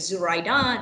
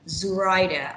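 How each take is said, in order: First: The stress is on the third syllable. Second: The stress is on the first syllable. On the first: "my stress on the third syllable" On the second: "I put an emphasis on the first syllable"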